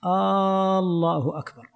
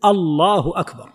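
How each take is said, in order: First: "الله أكبر" with first alif drawn out like a question; stretched opening alif. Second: "الله أكبر" starting on a short crisp "a"; unstretched opening alif. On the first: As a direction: hold the first "آ" of "الله" long, slowly. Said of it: "هذا انقلب الآن إلى استفهام". (مدّ ألف «الله» في أولها كالاستفهام) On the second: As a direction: begin "الله" short, as a statement. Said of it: "الواجب أن لا يمد الألف". («الله أكبر» بلا مدّ للألف الأولى) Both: Shown as a demonstration.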